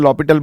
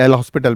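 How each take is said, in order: First: It is said as 'lo-pital', with no 's'. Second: It is said as 'el hospital', with an 's'. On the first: The speaker calls it right. "But it is French word लॉपिटल" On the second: The speaker calls it wrong. "एल हॉस्पिटल बोलूं"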